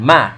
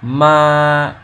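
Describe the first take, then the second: First: The syllable is cut off very quickly. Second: The syllable is drawn out for a long time. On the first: "it's like a fraction of a second" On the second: "you say the sound longer, like ma, you say it for like 2 or 3 seconds"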